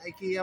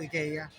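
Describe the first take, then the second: First: IKEA is pronounced the way Americans say it. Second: IKEA is pronounced the way Filipinos say it. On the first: This is how it is said in the US. "IKEA ang pronunciation dito" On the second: This is how it is said in the Philippines. "yun ang sabi nung sales lady sa Pilipinas eh"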